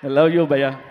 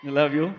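First: A big, public declaration of love; loud affectionate call. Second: Said in the usual way. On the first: Real, not acted. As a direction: shout it out to your friend, louder. Affection shouted to friend Ali. (ప్రేమగా గట్టిగా అరుస్తూ)

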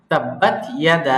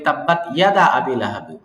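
First: ইয়াদা with the final vowel held long; stretched madd. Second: ইয়াদা said with the madd clipped short; wrong short madd. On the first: Teacher corrects the recitation, long drawn ইয়াদা. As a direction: stretch ইয়াদা slowly, three alif long. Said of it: "মাদ মুনফাসিল তিন আলিফ করতে হবে". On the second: Teacher shows the common mistake, clipped ইয়াদা. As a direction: rush through ইয়াদা without stretching it. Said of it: "ইয়াদার টানটা আমরা অনেকে দিই না". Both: Shown as a demonstration.

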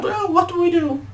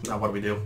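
First: Loud, very high falsetto; frightened cartoon voice. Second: Said in the usual way. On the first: Fleeing brother asks what to do, high loud squeal. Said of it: "fucking read that wrong".

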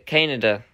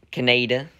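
First: Canada as KAN-uh-duh, stress up front; redub pronunciation. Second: Canada as kuh-NAY-duh, middle syllable stressed; rejected pronunciation. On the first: Confirming the redub's name for viewers, Canada stressed on first syllable. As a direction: say Canada with a short, unstressed middle. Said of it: "redub, it's". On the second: Contrasting the other dub for viewers, Canada as kuh-NAY-duh. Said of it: "not Canada". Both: Shown as a demonstration.

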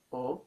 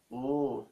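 First: "o" cut short; short vowel. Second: "oo" held out; long vowel. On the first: Teacher showing vowel can be short or long, short vowel. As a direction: keep the "o" brief. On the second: Teacher showing vowel can be short or long, long vowel. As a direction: draw the "oo" out. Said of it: "and long". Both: Shown as a demonstration.

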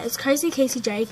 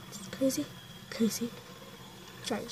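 First: Said in the usual way. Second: Whispered repeat of the name; whispering. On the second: Shown as a demonstration. Repeats sister's account name.

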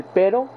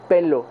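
First: Said in the usual way. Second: "pelo" for pero, r turned to l; Yamil. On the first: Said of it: "que es con R". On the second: Retold or imitated. Showing how his costeño friend says it, "pelo" with L for R. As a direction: say "pelo" with an L in place of the tapped R. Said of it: "él dice".

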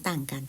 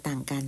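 No difference in how they are said.

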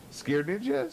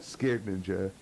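First: "Scared Ninja" lifted higher as a question; questioning name. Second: Said in the usual way. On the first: Real, not acted. Streamer checking a viewer's name, questioning "Scared Ninja" with raised pitch.

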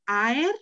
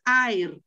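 First: "Aer" said carefully, rising onto the final "er"; Latin pronunciation. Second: "aer" said quickly as in Spanish, stressed on the opening "a"; the wrong "aer", stress up front, falling away; Spanish-style pronunciation. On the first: Teacher correcting toward Latin, "Aer" said slowly with a rising end. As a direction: say "Aer" the Latin way, lifting the second vowel. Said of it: "acuérdate que ae es diptongo". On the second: Teacher showing what it is not, "aer" said the Spanish way. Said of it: "Así sería en español". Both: Shown as a demonstration.

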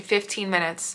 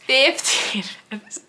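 First: Said in the usual way. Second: High and slow, with a laugh breaking through; disbelieving laugh on the repeat; laughing in disbelief. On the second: Real, not acted. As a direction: repeat it, cracking up mid-phrase.

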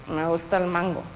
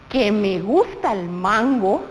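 First: "Me gusta el mango" said low, soft and flat, reluctant; displeased. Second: Said in the usual way. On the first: Shown as a demonstration. Teacher showing liking said with displeasure, grudging and flat. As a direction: say "Me gusta el mango" as if you hate mango. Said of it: "con cara de desagrado". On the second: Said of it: "No puedo decirte".

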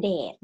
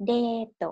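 First: Said in the usual way. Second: Date said "deeto", long e and short final to; Japanese-style English. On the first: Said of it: "ก็คือ date". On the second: Shown as a demonstration. Teacher models the third word for learners, Japanese-style pronunciation. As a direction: say date the katakana way, adding "to". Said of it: "ภาษาอังกฤษแบบญี่ปุ่น".

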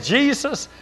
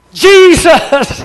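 First: Said in the usual way. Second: Sudden high, loud cry of the name; crying out Jesus. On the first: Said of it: "when we said". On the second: Retold or imitated. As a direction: shout the name in alarm as the dog lunges. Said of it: "Both of us cried out".

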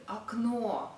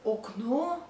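First: Окно as "ak-NO"; unstressed o reduced. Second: Окно with a full first o, "ok-no"; read as spelled. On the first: Teacher showing how it is read, окно as "akNO". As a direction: open окно with an a-like vowel. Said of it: "but we read". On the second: Teacher showing the spelling, окно with both o's kept. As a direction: sound out окно as written, "ok-no". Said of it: "or we write". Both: Shown as a demonstration.

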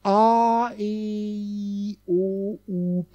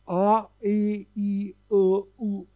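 First: A, E, I, O, U glided smoothly into one another in one breath; gliding vowels. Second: A, E, I, O, U each pushed out separately, with a break between them; pushed vowels. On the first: Teacher showing students how the vowels glide, one smooth slide. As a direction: slide through A, E, I, O, U without any break between them. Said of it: "pass auf, jetzt gleite ich durch". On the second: Teacher showing students the vowels pushed out one after another. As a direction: punch out A, E, I, O, U one by one. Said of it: "wenn du die nacheinander stößt". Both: Shown as a demonstration.

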